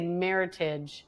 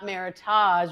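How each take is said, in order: First: The word rhymes with 'heritage'. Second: The word does not rhyme with 'heritage'. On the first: The speaker calls it right. "which rhymes with heritage" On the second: The speaker calls it wrong. "not Meritage"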